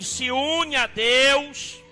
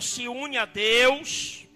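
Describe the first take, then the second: First: It is said louder. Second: It is said at normal volume.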